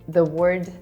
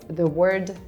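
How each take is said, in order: Both takes have the same delivery.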